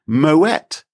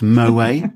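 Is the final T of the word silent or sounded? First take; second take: sounded; silent. First: The final T is clearly pronounced. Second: The final T is left silent. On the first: The speaker calls it right. "It is actually Moët because it's someone's name" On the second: The speaker calls it wrong. "it is not pronounced Moët? Even though it looks like, because it's French, you don't pronounce the final T"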